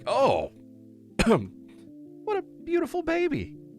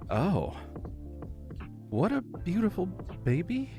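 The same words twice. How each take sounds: First: It sounds shocked and surprised. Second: It sounds insincere rather than warm. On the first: The speaker is startled by the baby. "you're showing shock" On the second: The speaker does not really mean the praise. "you've completely changed the meaning"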